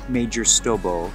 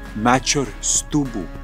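First: The name is said with 'oh' vowels. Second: The name is said with 'oo' vowels.

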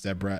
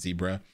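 First: It is said the South African way. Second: It is said the American way. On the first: "where it is pronounced zebra" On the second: "and not zebra"

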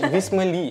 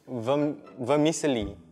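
First: The word is squeezed into three syllables. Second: The word is said with four full syllables. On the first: The speaker calls it wrong. "how did I pronounce it?" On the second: The speaker calls it right. "It's vermicelli"

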